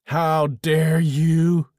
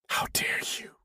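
First: It is said louder. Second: It is hissed quietly.

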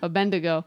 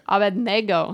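First: The middle of the name sounds like 'bend-i'. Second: The middle of the name sounds like 'bed-ne'. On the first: The speaker calls it wrong. "That's how everybody says it" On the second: The speaker calls it right. "But it's Abednego"

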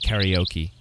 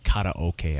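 First: The word is pronounced in an English way. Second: The word is pronounced in a Japanese way. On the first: "I was saying karaoke" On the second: "as it's really called. You know, it's the Japanese term"

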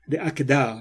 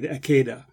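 First: It uses the Sephardi Hebrew pronunciation. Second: It uses the Ashkenazi Hebrew pronunciation.

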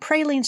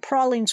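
First: It is said in a general, non-Southern pronunciation. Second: It is said in a Southern US pronunciation.

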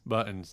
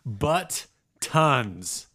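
First: The T sounds are dropped. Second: The T sounds are clearly pronounced. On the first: The speaker calls it wrong. "No T's" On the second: The speaker calls it right. "apparently I don't say the word buttons right. Butt tons"

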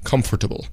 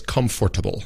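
First: It is said with four full syllables. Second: The same.

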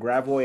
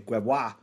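First: It is said the local St. Louis way. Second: It is said the French way.

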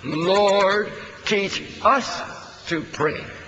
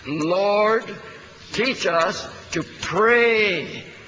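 First: The word "us" is stressed. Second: The word "pray" is stressed. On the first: The point is that we ourselves need teaching. "Let's emphasize the "us."" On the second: The point is learning to really pray. "emphasizing the word "pray.""

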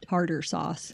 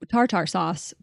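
First: The words are pronounced in the standard way. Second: The words are pronounced in a deliberately altered way. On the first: The speaker calls it right. "I'll say it correctly" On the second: The speaker calls it wrong. "I said tartar sauce, which is, oh my God"

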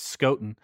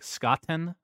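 First: The T is sounded lightly. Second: The T is sounded strongly. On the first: "You're reading it as Scotton" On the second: "people that pronounce the T more is like Scotten"

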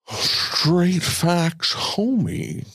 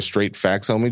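First: It is said in a put-on character voice. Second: It is said in a normal speaking voice.

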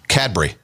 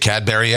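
First: The ending is squeezed into a short syllable. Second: The ending is said as a full syllable. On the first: The speaker calls it right. "the correct pronunciation is actually Cadbury" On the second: The speaker calls it wrong. "We always say Cadbury eggs"

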